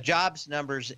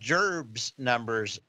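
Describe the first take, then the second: First: The word sounds like plain, standard 'jobs'. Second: The word sounds like 'jerbs', a cartoon drawl.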